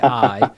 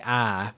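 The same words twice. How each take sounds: First: The word eye is said without an Alabama accent. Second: The word eye is said in an Alabama accent.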